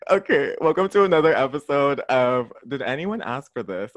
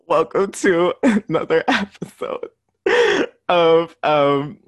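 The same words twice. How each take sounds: First: Said in the usual way. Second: Laughing so hard it sounds like crying; words breaking up with laughter; blubbering. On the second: Real, not acted. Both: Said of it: "sorry, I'm crying".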